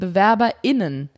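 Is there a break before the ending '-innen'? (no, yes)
yes. There is a short break before -innen. One word covers all genders at once. "die das so aussprechen"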